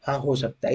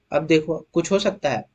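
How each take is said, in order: First: Softer, settled answer to own question; quiet confirmation. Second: Said in the usual way. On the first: Shown as a demonstration. Teacher answers his own question to the class, softer. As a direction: drop the voice and confirm हाँ हो सकता है.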